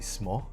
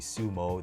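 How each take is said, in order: First: The u vowel after the s is dropped. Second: The u vowel after the s is pronounced. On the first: The speaker calls it right. "they say smo" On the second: The speaker calls it wrong. "They don't say sumo"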